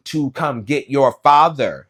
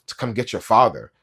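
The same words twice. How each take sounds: First: Each word of "To come get your father" spelled out slowly, louder and higher; slow, loud, patronizing "To come get your father" as if to a dumb child; condescending over-enunciation of "To come get your father"; over-enunciated. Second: Said in the usual way. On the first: Retold or imitated. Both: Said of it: "she over-enunciated".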